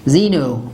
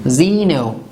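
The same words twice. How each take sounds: No difference in how they are said.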